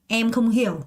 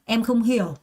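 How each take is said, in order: The two takes are said the same way.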